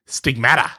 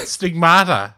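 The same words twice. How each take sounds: First: Stigmata with a short flat a, stig-MAT-a, not stig-MAR-ta; quoting an expert's odd stigmata, said stig-MAT-a; Ted Harrison's stigmata. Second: Said in the usual way. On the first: Retold or imitated. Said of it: "according to the world's leading expert on stigmata". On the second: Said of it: "or, according to the world's leading expert".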